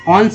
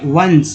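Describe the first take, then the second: First: The word starts with a vowel, without w. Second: The word starts with a clear w sound. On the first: The speaker calls it wrong. "ऑन्स नहीं बोलेंगे" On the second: The speaker calls it right. "वंस पढ़ेंगे"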